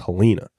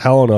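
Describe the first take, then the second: First: It is said the southern regional way. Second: It is said the general, widespread way. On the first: "unless you went down south" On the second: "across the board"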